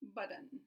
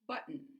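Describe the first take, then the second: First: The middle T is a quick tap. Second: The middle T is a glottal stop. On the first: The speaker calls it wrong. "Or they might try a tap" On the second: The speaker calls it right. "But the correct pronunciation is button"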